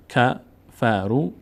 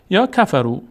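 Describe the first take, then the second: First: کفرو stretched very slowly, syllable by syllable; slow drawn-out reading. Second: Said in the usual way. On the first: Shown as a demonstration. Teacher showing students how کفرو is read, slowly drawn out. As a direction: draw out کفرو as if spelling it aloud.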